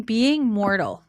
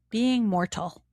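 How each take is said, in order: First: Said in the usual way. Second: Being Mortal with a carefully sounded T in Mortal; careful pronunciation. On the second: Shown as a demonstration. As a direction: try out "Mortal" with a crisp T, unsure. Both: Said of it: "I don't know how to say it properly".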